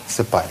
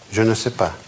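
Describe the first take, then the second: First: The 'je ne' is dropped, leaving a reduced form. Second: Every word, including 'je ne', is fully pronounced. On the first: This is how people usually say it in everyday speech. "Французы вот это «je ne» пропускают. Они говорят просто «c'est pas»" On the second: This is the complete standard form. "полная правильная форма «je ne sais pas»"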